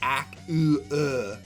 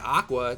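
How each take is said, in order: First: The u is a separate oo vowel. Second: The u is a quick w glide. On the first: The speaker calls it wrong. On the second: The speaker calls it right.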